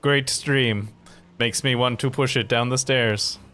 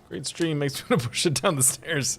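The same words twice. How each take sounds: First: It is read in a flat robotic voice. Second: It is read in a natural human voice.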